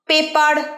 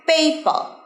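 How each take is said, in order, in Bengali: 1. শেষের r ধ্বনিটা উচ্চারণ করা হয়। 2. শেষের r ধ্বনিটা বাদ যায়। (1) "পেপার নয়, কখনোই লাস্টের আর্টটা ইউজ করবে না" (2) "কি বলবে? পেপার"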